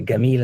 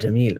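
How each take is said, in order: First: It is said with an Egyptian hard g. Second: It is said with a standard j sound.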